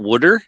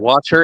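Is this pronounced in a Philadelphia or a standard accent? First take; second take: Philadelphia; standard. First: It is said with a Philadelphia accent. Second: It is said with a standard American pronunciation. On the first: "and not wooder" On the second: "I also call it water"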